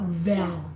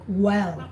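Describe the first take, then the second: First: The word begins with a V sound. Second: The word begins with a rounded W sound. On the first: The speaker calls it wrong. "It's not like V. It's not vel" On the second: The speaker calls it right. "your mouth is round when you say well"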